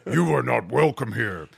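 It is said in a growling Bigfoot voice.

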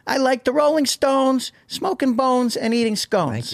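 It is said in a put-on character voice.

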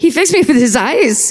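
It is said with a put-on German accent. "it should be in a German accent"

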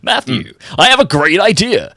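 It is said in a put-on, salesy business voice. "You want me to do my business voice?"

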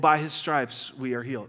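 It is said in a flat, half-hearted way. Said without real belief. The speaker calls it wrong. "We could just say, "Well"

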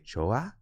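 It is said as a question, rising.

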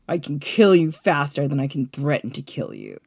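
The line is read in a cold, menacing tone. The speaker calls it right.

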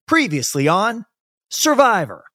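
There is a pause before Survivor.

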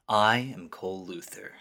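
It is said in a dramatic put-on voice.

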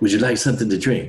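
It is spoken in a put-on, imitated voice.

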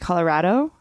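It is said the way Colorado locals say it. The speaker lives in Colorado. "if you live here, you tend to say Colorado"

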